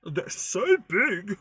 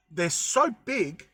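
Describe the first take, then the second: First: "they're so big" slow and higher, voice cracking; voice breaking. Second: Slow, stretched "so big"; drawn out. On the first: Vlogger marvelling at pine cones, voice breaking. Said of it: "It's like my voice is breaking". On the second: Vlogger marvelling at the pine cones, slow and drawn out. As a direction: let "so big" drag out slowly. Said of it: "The way I said that sounded really weird". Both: Real, not acted.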